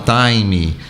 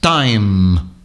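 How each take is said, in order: First: An extra vowel sound follows the final consonant. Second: The word ends sharply on the final consonant. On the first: The speaker calls it wrong. "o brasileiro tem a mania de falar" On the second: The speaker calls it right. "m, m, seco"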